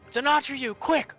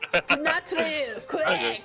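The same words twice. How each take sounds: First: It is said in the speaker's plain voice. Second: It is said in the character's accent.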